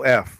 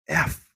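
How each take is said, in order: First: The word is shouted loudly, like an echo. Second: The word is said quietly and flatly. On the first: "I said it loud as hell" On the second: "Except I didn't say it like that"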